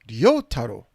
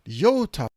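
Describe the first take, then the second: No difference in how they are said.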